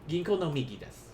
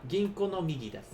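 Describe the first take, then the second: The two takes are said the same way.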